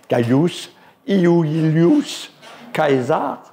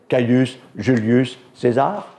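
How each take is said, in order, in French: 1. Le nom se prononce à la latine. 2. Le nom se prononce à la française. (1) "Autrement, ça serait" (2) "je le prononce à la française"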